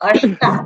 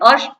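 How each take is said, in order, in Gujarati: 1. છેલ્લો સ્વર લાંબો છે. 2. છેલ્લો સ્વર ટૂંકો છે. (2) "અષ્ટ નહીં"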